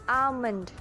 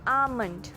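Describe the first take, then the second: The two takes are said the same way.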